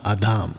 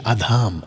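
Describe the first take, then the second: First: The second vowel is long. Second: The second vowel is long.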